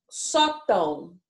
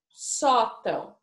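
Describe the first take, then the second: First: Sótão drawn out slowly, syllable by syllable; slow syllable-by-syllable reading. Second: Sótão said again slowly, level and clear; slow clear repeat. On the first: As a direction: stretch out sótão for the class. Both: Shown as a demonstration. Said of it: "a gente tem aqui".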